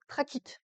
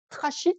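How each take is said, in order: First: The 'ch' is said as a 'k' sound. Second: The 'ch' is said as a 'sh' sound. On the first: "prononcez-le trachyte, hein, comme les trachéoles des insectes" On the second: "ça s'écrit trachyte"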